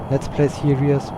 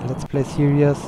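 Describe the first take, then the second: No difference in how they are said.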